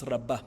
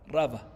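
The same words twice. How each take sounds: First: Rabá said with the last syllable, BA, stressed; Rabá as ra-BA, slowly, set against RA-ba. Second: Rabá said with the first syllable, RA, stressed and the second syllable light; Rabá as RA-ba, slowly, as a demo of the stress. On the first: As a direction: land on the BA of Rabá, the name spelt with Hei. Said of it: "con Hei es Rabá". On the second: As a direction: hit the RA of Rabá, the name spelt with Aleph. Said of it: "la sílaba tónica está en la Ra". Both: Shown as a demonstration.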